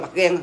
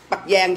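First: Nói "gan" không có âm "i"; đọc "gan" thay vì "gian", như bản bị sửa; phát âm "gan". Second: Nói rõ "gian", có âm "i" sau phụ âm đầu; nhấn chữ "gian" cho khác "gan"; phát âm "gian". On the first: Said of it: "chứ không phải là bắt gan". (chữ "gan" với âm g thẳng vào a) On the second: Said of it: "Bắt gian chứ không phải là bắt gan". (đọc rành chữ "gian", đừng thành "gan") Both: Shown as a demonstration.

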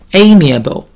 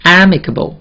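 First: "amiable" opening on a long "ay"; long A sound. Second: "amicable" opening on a short "a" as in "am"; "amicable" starting AM, not AY; short A sound. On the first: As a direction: say "amiable" slowly, first vowel like the letter A. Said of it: "这是读成A这个音". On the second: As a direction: say "amicable" with an open short first vowel. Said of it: "这是amicable". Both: Shown as a demonstration.

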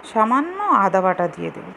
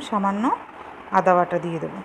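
The two takes are said the same way.

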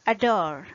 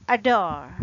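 First: "adore." said with a weak schwa first and stress on "dore"; model word. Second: "Adore." said louder, uh-DORE, stress on the second syllable; louder model word. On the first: Teacher models the stress on the second syllable. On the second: Teacher repeats the example with firm stress. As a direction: repeat "Adore." firmly with a schwa start. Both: Shown as a demonstration. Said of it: "Another example is".

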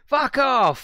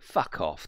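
First: "Fuck off!" yelled much higher and louder, hitting "Fuck" hard; screamed fuck off. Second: Said in the usual way. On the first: Shown as a demonstration. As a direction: bellow "Fuck off!" like the car itself is screaming it. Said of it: "That's what it screams to me". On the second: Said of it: "It just screams".

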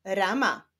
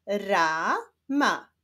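First: Said in the usual way. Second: "Rama" slowly split into ra, ma; syllable by syllable. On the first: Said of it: "i łączenia ich w wyrazy". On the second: Shown as a demonstration. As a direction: sound out "Rama" with a break between syllables. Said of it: "zapraszam Was do odczytywania sylab". ("Rama" powoli, z podziałem na ra, ma)

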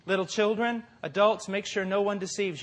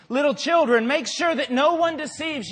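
First: Said in the usual way. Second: Read out with emphasis. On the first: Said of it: "Now, I'm telling you this". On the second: Retold or imitated. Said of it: "it's talking about".

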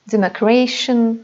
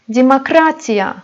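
First: Democration ending in -shun; English-sounding de-mo-KRAY-shun for democration; English-style pronunciation. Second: Demokratiya said di-ma-KRA-ti-ya; Russian demokratiya with reduced first vowels; Russian pronunciation. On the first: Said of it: "İngilizce telaffuzuna". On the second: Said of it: "İngilizce telaffuzuna benzeyen sözcüklerdir". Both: Shown as a demonstration.

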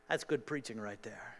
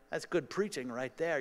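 First: Lower, softer wry self-praise under the breath; muttered joke. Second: Wry aside about his own sermon; tongue-in-cheek pat on the back; joking self-praise. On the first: Preacher quietly praising his own sermon, low aside. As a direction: throw it away, dry and amused. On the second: Preacher praising his own point, dry and amused. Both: Real, not acted.

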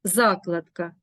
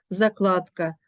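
First: Закладка as ЗАкладка; stress on first syllable. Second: Закладка as заКЛАДка; stress on second syllable. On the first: Teacher naming a bookmark, закладка stressed on ЗА. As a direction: open strongly on ЗА in закладка. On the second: Teacher naming vegetable canning, закладка stressed on КЛАД. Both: Shown as a demonstration. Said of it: "Порівняємо".

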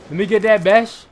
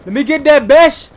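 First: Said in the usual way. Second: Higher, much louder repeat; excited gamer shout at the screen; hyped shout. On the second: Real, not acted. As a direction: yell it again, pumped up.

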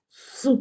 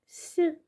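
First: С as a hard, unsoftened s; hard consonant. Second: С palatalized, high-pitched soft s; soft consonant. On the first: Teacher shows children an angry hard С, unsoftened. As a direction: sound out С alone, hard, without palatalizing. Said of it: "Тверді голосні, сердиті, буркотливі". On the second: Teacher shows children the gentler soft С, palatalized. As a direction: sound out С gently as sʲ, raised in pitch. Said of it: "А м'які приголосні лагідніші". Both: Shown as a demonstration.

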